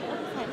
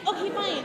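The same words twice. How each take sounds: First: Soft, low "Okay, fine"; quiet resigned. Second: Said in the usual way. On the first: Acted. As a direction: give in quietly. Repeated take, quieter.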